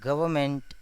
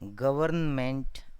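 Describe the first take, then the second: First: The word is said in a shortened, reduced form. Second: The word is said with every syllable fully. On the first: This is how it sounds in everyday speech. "in speaking" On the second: This is how it is spelled out in writing. "in writing"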